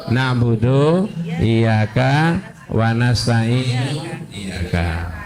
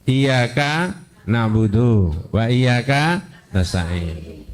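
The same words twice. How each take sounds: First: Slow reordered reading. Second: Slow, measured recitation of the verse; slow Quranic reading. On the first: Teacher slowly showing the grammatical but forbidden order. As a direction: spell out the swapped order slowly, let the last word fade. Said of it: "Lah kalau iyyaka di belakang, bacanya gimana?". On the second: Teacher slowly reciting the correct Quran order to the student. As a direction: recite it slowly and carefully, as taught. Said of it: "membaca menurut yang diajarkan di Quran". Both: Shown as a demonstration.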